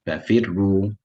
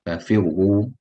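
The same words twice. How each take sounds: First: The r sounds light, thin and flat. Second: The r sounds heavy, full and rounded.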